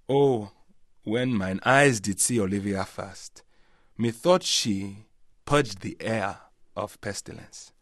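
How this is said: It is spoken in a Nigerian accent. "in a Nigerian accent, there'd be much more kind of, I suppose there'd be vowel sounds and different pauses"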